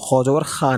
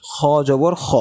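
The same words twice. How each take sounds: First: Unrounded "খা", aa instead of aw; wrong thin vowel. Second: Heavy "খ", vowel darkened towards o; thick vowel. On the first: Teacher shows students the mistake, "খা" with open aa. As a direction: end "খা" on an open aa. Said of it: "খ জবর খা না". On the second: Teacher shows students the heavy letter, "খ" with aw. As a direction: end "খ" on a rounded aw. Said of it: "sound মোটা হওয়ার কারণে". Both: Shown as a demonstration.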